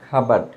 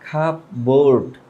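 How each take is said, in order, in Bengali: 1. দ্বিতীয় সিলেবলটি সংকুচিত, এতে r নেই। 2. দ্বিতীয় সিলেবলটি একটি পূর্ণ 'board' ধ্বনি। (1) "বাট এটার উচ্চারণটা হবে খাবাড" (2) "আমরা এটাকে নর্মালি বলি"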